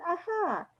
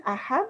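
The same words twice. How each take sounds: First: Higher, softer Ajá; Ajá lifted high; different ajá. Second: Said in the usual way. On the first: Shown as a demonstration. Teacher contrasts a second, higher Ajá. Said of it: "es otro". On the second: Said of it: "tiene un sentido".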